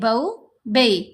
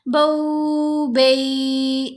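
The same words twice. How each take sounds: First: The vowel sounds are short and soft. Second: The vowel sounds are drawn out long. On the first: The speaker calls it right. "बल्कि" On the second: The speaker calls it wrong. "ऐसे लंबा नहीं करना"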